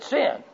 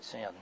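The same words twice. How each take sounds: First: It is said louder than before. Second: It is said quietly, head hung.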